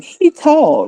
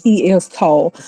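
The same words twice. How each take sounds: First: Ebonics grammar demo. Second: Said in the usual way. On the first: Shown as a demonstration. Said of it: "this is how Africans talk". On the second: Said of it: "rather than saying".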